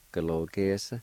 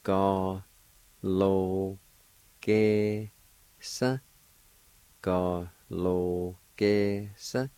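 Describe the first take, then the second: First: "Ga, lo, ge, sa" run together as one word; whole-word demo of "Ga, lo, ge, sa"; joined-up pronunciation. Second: "Ga, lo, ge, sa" drawn out, rising on "sa"; careful teacher's breakdown of "Ga, lo, ge, sa"; syllable-by-syllable pronunciation. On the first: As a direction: blend "Ga, lo, ge, sa" without pauses. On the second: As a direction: sound out each syllable of "Ga, lo, ge, sa" with pauses. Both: Shown as a demonstration. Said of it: "it's pronounced like this".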